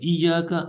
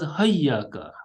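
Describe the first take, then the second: First: The word begins with an i vowel. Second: The word begins with an h sound. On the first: "instead of iyaka" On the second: "also as hayyaka with ha"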